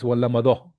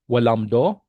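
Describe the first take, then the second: First: The word is said with three vowels after 'wal'. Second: The word is said with two vowels after 'wal'. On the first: The speaker calls it right. "That's how you pronounce it" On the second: The speaker calls it wrong. "Is it walamdo? No"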